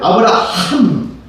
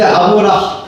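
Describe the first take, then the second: First: The final h syllable is breathy, strong and clear. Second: The final h syllable is weak and nearly inaudible. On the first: The speaker calls it right. "아브라함을 들리게 하면" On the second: The speaker calls it wrong. "아브라, 하면 잘 들려, 안 들려요?"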